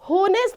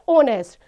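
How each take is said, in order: First: The word begins with an audible h sound. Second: The word begins with a vowel, no h sound. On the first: The speaker calls it wrong. "होनेस्ट नहीं बोला जाता students" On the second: The speaker calls it right. "इसको बोला जाता है ओनेस्ट"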